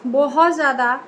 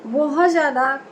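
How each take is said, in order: Both takes have the same delivery.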